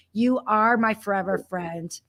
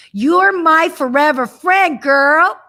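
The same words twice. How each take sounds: First: Quiet, tender repeat; soft and sincere. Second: Louder, emphatic and affectionate; exuberant declaration. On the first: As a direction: say it gently, from the heart. Repeats line softly, sincerely. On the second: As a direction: proclaim it with joy. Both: Real, not acted.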